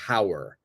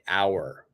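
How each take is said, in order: First: It begins with a pronounced h sound. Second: It begins with a vowel, h silent. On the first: The speaker calls it wrong. "We don't say hour" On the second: The speaker calls it right. "We're going to say hour"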